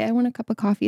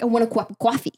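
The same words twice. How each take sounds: First: Said in the usual way. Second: New York accent with coffee said as cawfee. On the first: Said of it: "you wouldn't say". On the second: Shown as a demonstration. Explaining New York speech to a friend, New York accent. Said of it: "It's like".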